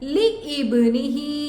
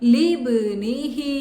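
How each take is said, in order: First: A glottal stop separates li from ibnihi. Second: Li runs straight into bnihi without a stop. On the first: The speaker calls it wrong. "ലി ഇബ്നിഹി എന്ന് ഓതാറുണ്ട്" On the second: The speaker calls it right. "ലി കഴിഞ്ഞ് നേരെ ബയിലോട്ട് പോണം"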